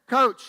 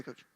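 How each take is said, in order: First: A called-out coach, a little louder; calling out coach. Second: Said in the usual way. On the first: Retold or imitated. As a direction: call out to the coach from across the course. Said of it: "I hear this voice, and it says".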